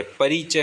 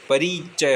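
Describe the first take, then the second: First: परिचय said with a short ri; correct short i. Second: परिचय said as "pareechay", with a drawn-out ee; wrong long i. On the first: Teacher giving the right परिचय, pronounced "pa-ri-chay", short i. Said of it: "परिचय होता है". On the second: Teacher showing the mistaken परिचय, said with a long ee. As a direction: stretch the ri of परिचय into ree. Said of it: "ना कि परिचय". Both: Shown as a demonstration.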